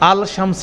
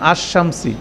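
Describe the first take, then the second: First: The L sound of the article is pronounced. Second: The L merges into a doubled sh sound. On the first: The speaker calls it wrong. "আল শামসি বলিন না" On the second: The speaker calls it right. "আল লামটা সাইলেন্ট হয়ে যায়"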